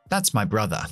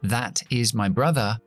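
First: 'That is' is shortened to one syllable. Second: 'That is' is said as two full words. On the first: "lo vamos a contraer... Mucho más fácil, mucho más rápido" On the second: "En lugar de decir"

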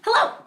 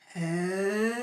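First: It is said fast. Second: It is said slowly.

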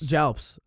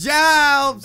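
First: The word is said quietly and casually. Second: The word is said loudly and forcefully.

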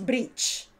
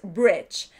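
First: The vowel sounds like a Spanish I. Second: The vowel sounds closer to a Spanish E. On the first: The speaker calls it wrong. "no es bridge" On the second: The speaker calls it right. "se parece más a una E española que a una I"

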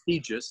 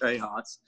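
First: The name is said with English-style sounds. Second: The name is said with Spanish-style sounds. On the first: This is how local customers said the name. The speaker calls it wrong. "they called it Tejas" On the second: This is the name as the owner intended it. The speaker calls it right. "instead of Tejas"

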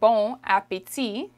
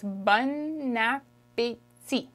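First: Bon and appétit are said without linking. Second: The n of bon runs into appétit. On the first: The speaker calls it wrong. "that's why it's not bon appétit" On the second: The speaker calls it right. "There's a liaison in there"

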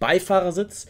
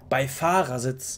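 First: The stress is on the first syllable, Bei. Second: The stress is on the second syllable, Fahr. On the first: "nicht normal betont" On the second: "die Betonung liegt nicht auf dem Bei, sondern eher auf dem Fahr"

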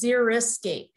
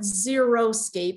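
First: The first part sounds like zeri, not zero. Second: The first part sounds like the word zero. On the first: A landscape suited to dry conditions. The speaker calls it right. "What we want to encourage is xeriscape" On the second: A landscape with nothing growing in it. The speaker calls it wrong. "it's not xeriscape, and some people do mispronounce it"

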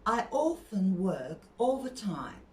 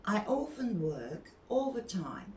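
No difference in how they are said.

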